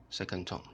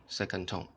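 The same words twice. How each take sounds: The two takes are said the same way.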